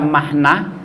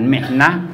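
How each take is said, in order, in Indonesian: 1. Vokal setelah m pertama adalah a. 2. Vokal setelah m pertama adalah i. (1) "mim dengan fathah" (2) "dengan kasroh"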